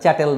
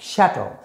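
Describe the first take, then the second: First: The word begins with a 'ch' sound. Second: The word begins with an 'sh' sound. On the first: The speaker calls it wrong. "উচ্চারণটা চ্যাটেল নয়" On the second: The speaker calls it right. "শ্যাটেল উচ্চারণটা"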